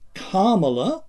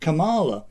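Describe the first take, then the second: First: The name follows its reference-source pronunciation. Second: The name follows a naturally anglicized pronunciation. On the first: The speaker calls it right. "I'm saying Kamala the Wikipedia way" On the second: The speaker calls it wrong. "pronounced it the natural way"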